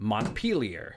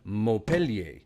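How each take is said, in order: First: The name is pronounced the local American way. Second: The name is pronounced the French way. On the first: The speaker calls it right. "locals opt instead for Montpellier" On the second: The speaker calls it wrong. "spoken precisely like the French city after which it was named"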